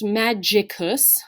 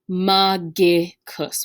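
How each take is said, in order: First: The G is soft, like a J sound. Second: The G is hard, as in go. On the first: The speaker calls it wrong. "it is not pronounced magicus, no J sound" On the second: The speaker calls it right. "It is pronounced magicus with that G, that hard G"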